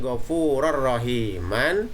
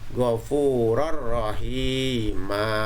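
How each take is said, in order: First: The last word ends with an n sound. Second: The last word ends with a long vowel. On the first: The reading continues without stopping. "Yang tadinya membacanya ghafurur rahiman" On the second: The reading stops at the end of the verse. "maka dibacanya ghafurur rahima. Nah, ini panjang di sini"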